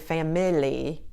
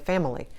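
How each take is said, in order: First: The middle vowel is a full, clear vowel. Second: The middle vowel is reduced to a short uh. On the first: The speaker calls it wrong. "you don't say family" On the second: The speaker calls it right. "you say family"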